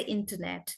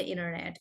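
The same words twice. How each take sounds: First: Internet with both Ts pronounced; British T. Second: Internet as "innernet"; American rolled T. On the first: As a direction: say internet with a clear first T. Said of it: "then you can't say internet". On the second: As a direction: drop the first T of internet. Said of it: "if you are speaking in American". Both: Shown as a demonstration.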